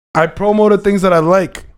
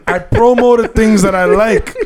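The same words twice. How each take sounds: First: Said in the usual way. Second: Laughing through the words, a bit slower; can't hold back the giggle; trying not to laugh. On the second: Real, not acted.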